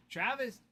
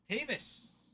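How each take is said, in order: First: "Travis" with an R after the T; "Travis" said as first misread; misread name. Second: "Tavis" without R, TAY-vis; "Tavis" corrected to the right spelling; corrected name. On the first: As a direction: read the name as "Travis", T-R-A-vis. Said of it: "first glance looked like Travis". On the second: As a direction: stress the first syllable, TAY-vis, no R. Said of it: "Tavis sounds right". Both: Shown as a demonstration.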